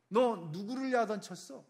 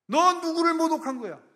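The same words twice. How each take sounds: First: Stern rebuke at normal volume, stress on 너; a hard, pointed question, held back; firm scolding. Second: Much higher and louder, 너 thrown hard; furious shout. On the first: God rebuking the king, firm and controlled. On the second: God shouting at the king who mocked Him. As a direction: let the rebuke explode. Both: Acted. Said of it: "사람의 음성처럼 듣는 거예요".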